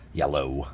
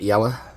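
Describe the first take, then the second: First: The word ends with an 'oh' sound. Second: The word ends with an 'er' sound. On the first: It is the standard English pronunciation. The speaker calls it right. "I can speak English" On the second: It reflects the speaker's home region's lazy speech. The speaker calls it wrong. "a lot of people say yellow. It's like we're lazy"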